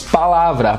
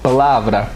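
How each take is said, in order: First: The first vowel is a full, open a. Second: The first vowel is relaxed into a schwa. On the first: This is how Brazilians say it. "nós brasileiros falaríamos" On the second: This is how a foreigner says it. "ele faz um pouquinho de schwa sounds no, no pá. Ele fala"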